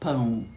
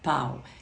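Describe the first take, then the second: First: The vowel is nasalized. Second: The vowel is not nasalized. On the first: "não tem esse nasalizado no americano" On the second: "Eles não têm som nasalizado. ... Eles falam pau"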